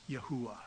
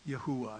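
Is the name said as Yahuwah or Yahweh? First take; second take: Yahuwah; Yahuwah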